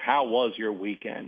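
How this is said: It is asked with warm, genuine interest.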